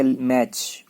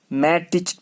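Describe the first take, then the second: First: मैच in one beat ending on CH; right form मैच, no separate T; silent T. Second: मैटिच in two beats, "mat-ich"; wrong form मैटिच with a separate T; sounded T. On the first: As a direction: say मैच as "match", T unheard. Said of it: "लेकिन पढ़ा जाएगा मैच". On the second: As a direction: pronounce the T in मैटिच before CH. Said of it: "मैटिच नहीं पढ़ना". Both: Shown as a demonstration.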